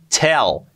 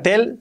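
First: The T is strong and forcefully released. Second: The T is soft and weakly released. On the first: The speaker calls it right. "La T bien fuerte" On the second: The speaker calls it wrong. "que no sea tell"

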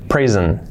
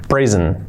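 Both takes have the same delivery.

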